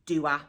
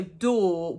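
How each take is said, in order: First: DOER as "doo-ah", two syllables for door; extra syllable. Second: Said in the usual way. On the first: Shown as a demonstration. Teacher explains extra syllables, DOER said "doo-ah". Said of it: "put extra syllables in words". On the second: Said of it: "So door would be doer".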